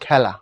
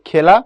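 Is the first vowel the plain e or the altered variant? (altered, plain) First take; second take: altered; plain. First: The first vowel is a slightly altered e sound. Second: The first vowel is a plain e sound. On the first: This is how the word is actually read. "পড়ার সময় পড়ি" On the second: This is how the word is spelled. "লেখার সময় লিখি"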